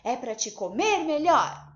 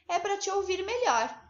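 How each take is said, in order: First: It is said forcefully, as an exclamation. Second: It is said plainly, without exclamation.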